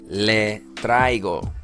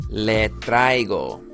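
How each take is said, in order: The two takes are said the same way.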